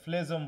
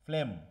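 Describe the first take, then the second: First: The word is said with a g sound. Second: The word is said without any g sound. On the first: The speaker calls it wrong. "অনেকে ফ্লেজম বলো না যেন আবার" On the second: The speaker calls it right. "জি এর কোনো উচ্চারণ হবে না।"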